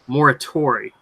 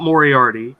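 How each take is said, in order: First: The name ends with a 'tori' sound. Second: The name ends with an 'arty' sound. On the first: The speaker calls it right. "It's Moratori" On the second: The speaker calls it wrong. "did I say it wrong? It's not Moriarty"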